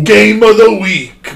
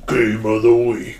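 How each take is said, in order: First: It is said at a higher pitch. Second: It is said at a lower pitch.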